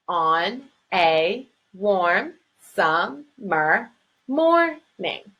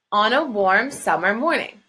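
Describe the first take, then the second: First: Very slow, On a warm summer morning cut into separate syllables; counting syllables. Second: Said in the usual way. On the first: Shown as a demonstration. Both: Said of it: "Seven syllables".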